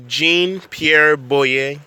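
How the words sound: The name is said with an American accent. "that's how you say it in America"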